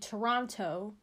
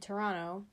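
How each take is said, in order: First: The second T sound is clearly pronounced. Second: The second T sound is dropped. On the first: "I don't say Toronto" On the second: "I don't really say the second T"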